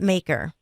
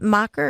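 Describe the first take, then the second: First: The ending is pronounced like 'mayker'. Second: The ending is pronounced like 'mahker'. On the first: The speaker calls it right. "or is it Maker? ... It's Maker" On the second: The speaker calls it wrong. "Did I say it is Macher"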